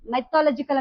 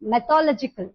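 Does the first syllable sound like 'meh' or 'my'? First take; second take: my; meh. First: The first syllable is said like 'my'. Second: The first syllable is said like 'meh'.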